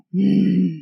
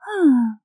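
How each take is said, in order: First: Short growly sigh; growling sigh. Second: High, falling contented sigh. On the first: Showing the sighs God tells apart, a growling sigh. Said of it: "every growling sigh". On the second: Showing the sighs God tells apart, a contented sigh. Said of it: "every contented sigh". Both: Shown as a demonstration.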